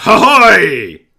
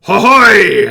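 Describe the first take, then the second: First: High, loud shouted reply; goblin guards' answering cry. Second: High, loud shouted cry; rally the troops with a shout; goblin captain's battle cry. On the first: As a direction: shout it back like a crowd of goblins. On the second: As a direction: goblin captain leading the cheer. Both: Acted. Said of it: "the other goblins call back".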